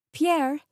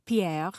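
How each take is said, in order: First: Raised, higher call to the chef. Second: Badly imitated French, with a flourish; terrible French accent. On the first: Narrator to aunt's private chef across the kitchen, calling out. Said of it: "I called out to". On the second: Narrator teasing the chef about his name, terrible French accent. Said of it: "a terrible imitation of a French accent". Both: A narrator's reading.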